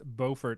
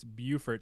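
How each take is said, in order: First: It uses the North Carolina pronunciation. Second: It uses the South Carolina pronunciation. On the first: This is how the North Carolina town is said. "It's pronounced Beaufort up here" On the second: This is how the South Carolina town is said. "It's Beaufort down there"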